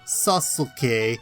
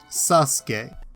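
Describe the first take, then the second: First: The middle u vowel is clearly sounded. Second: The middle u vowel is silent. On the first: "spelled Sasuke" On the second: "it's pronounced Sasuke"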